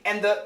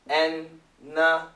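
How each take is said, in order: First: Both the d and the th are pronounced. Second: The d and th merge into a long n.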